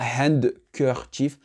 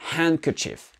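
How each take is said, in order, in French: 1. Le son D est prononcé dans le mot. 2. Le son D n'est pas prononcé dans le mot. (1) "Pas handkerchief" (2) "le D n'est pas prononcé dans ce mot-là"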